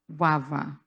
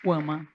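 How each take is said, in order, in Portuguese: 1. A segunda consoante é o som de W. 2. A segunda consoante é o som de M.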